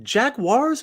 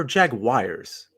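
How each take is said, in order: First: Jaguars said as "JAG-wars"; JAG-wars pronunciation. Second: Jaguars said as "JAG-wires"; JAG-wires pronunciation. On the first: Co-host asking how to say it, Jaguars as "JAG-wars". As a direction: say Jaguars in two beats, ending like "wars". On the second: Co-host offering the other option, Jaguars as "JAG-wires". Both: Shown as a demonstration. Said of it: "Is it Jaguars or Jaguars?".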